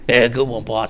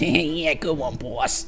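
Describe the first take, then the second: First: It is said in a big goon's voice. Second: It is said in a smaller goon's voice.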